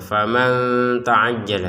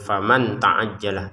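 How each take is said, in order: First: The n sound is blurred into the t. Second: The n sound is pronounced fully and clearly. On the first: The speaker calls it right. "kita harus membacanya dengan samar" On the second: The speaker calls it wrong. "Jangan faman ta'ajjala. Ya, faman ta'ajjala itu dengan jelas"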